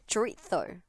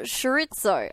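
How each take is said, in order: First: The word begins with a 'ch' sound. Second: The word begins with a 'sh' sound. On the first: The speaker calls it right. "The way you're actually supposed to say chorizo is" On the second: The speaker calls it wrong. "Like I say sh instead of ch"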